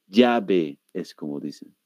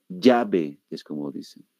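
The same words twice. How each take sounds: Both takes have the same delivery.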